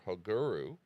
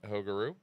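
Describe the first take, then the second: First: The name is said with native-style foreign sounds. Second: The name is said with plain English sounds.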